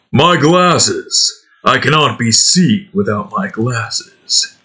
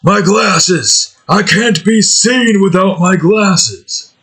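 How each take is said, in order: First: A hint of Duke's growl, less whiny. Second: Duke wailing high for his glasses, slower; lightly voiced Duke crying out over lost glasses; whiny Duke voice. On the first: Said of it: "get into the Duke mindset". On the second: Gamer doing Duke missing his glasses, a mock high wail. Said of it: "He'll be like".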